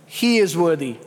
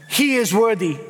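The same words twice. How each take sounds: First: Said in the usual way. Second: He is worthy lifted as an exclamation; triumphant he is worthy, ringing out; exclaimed, not stated. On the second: Shown as a demonstration. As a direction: say it like an exclamation mark. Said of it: "exclamation mark".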